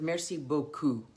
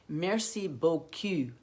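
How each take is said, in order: First: The last word sounds like standard 'beaucoup'. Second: The last word sounds like 'beau cul'. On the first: It means 'thank you very much'. The speaker calls it right. "instead of" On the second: It sounds like 'cute butt' to French ears. The speaker calls it wrong. "I'd gotten into the habit of saying"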